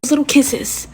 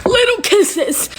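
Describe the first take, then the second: First: Said in the usual way. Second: "Little kisses" high and drawn out in relief; overjoyed, slow "Little kisses"; relieved. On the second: Real, not acted. Relieved repeat of the answer.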